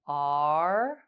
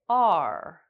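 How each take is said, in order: First: The pitch goes up. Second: The pitch goes down. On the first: "make the sounds go up and down like this" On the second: "make the sounds go up and down like this"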